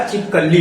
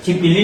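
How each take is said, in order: First: छिपकली with a "kal" middle; short a after the k in छिपकली; corrected pronunciation. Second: छिपकिली with a "kil" middle; short i after the k in छिपकिली; rejected pronunciation. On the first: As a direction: say छिपकली as "chhip-kal-lee". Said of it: "छिपकली होता है". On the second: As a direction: say छिपकिली as "chhip-kil-lee". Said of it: "छिपकिली नहीं होता". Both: Shown as a demonstration.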